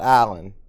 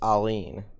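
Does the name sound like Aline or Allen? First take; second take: Allen; Aline. First: The name is said like Allen. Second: The name is said like Aline. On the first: The speaker calls it wrong. "It's not Allen" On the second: The speaker calls it right. "It's Aline"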